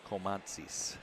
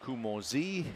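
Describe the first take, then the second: First: The name begins with a long 'coal' sound. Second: The name begins with a short 'koo' sound. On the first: The speaker calls it right. "He said Cole Montzis" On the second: The speaker calls it wrong. "So I was saying Kumozi"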